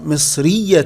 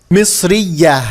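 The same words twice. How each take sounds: First: مصرية ending in a sounded "-tun"; tanween with damma. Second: Said in the usual way. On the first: Shown as a demonstration. Teacher shows the feminine nationality, مصرية with "-tun" ending. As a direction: pronounce مصرية as "misriyyatun", with tanween. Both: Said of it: "وممكن نضع تنوين بالضم".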